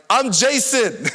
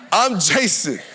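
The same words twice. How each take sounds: First: Higher, loud confused shout of his name; yelled back. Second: Said in the usual way. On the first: Retold or imitated. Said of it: "I just yelled back". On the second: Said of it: "repeats his answer".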